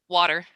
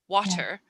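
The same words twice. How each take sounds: First: The middle t is pronounced weakly and softly. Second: The middle t is pronounced strongly and crisply. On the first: "but we'd say little, water" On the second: "the British would say little or water"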